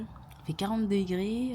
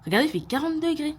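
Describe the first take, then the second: First: Slow, stretched-out complaint; drawn out. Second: Said in the usual way. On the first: Real, not acted. Telling her viewers about the heat, drawn out slowly. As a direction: drag every word out.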